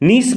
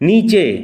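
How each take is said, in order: First: The word ends with an 's' sound. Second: The word ends with a 'ch' sound. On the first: The speaker calls it wrong. "নিস বা নিচে নয়" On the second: The speaker calls it right. "এখানে সিএইচ এর যেরকম উচ্চারণ এখানেও সিএইচ সেরকম উচ্চারিত হবে"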